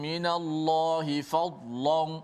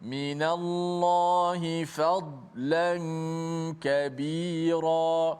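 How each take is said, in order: First: The l sound is heavy and thick. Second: The l sound is light and thin. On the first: The speaker calls it wrong. "Tidak boleh kita baca" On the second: The speaker calls it right. "lam ... dibaca dengan sifatnya ... sifat yang nipis"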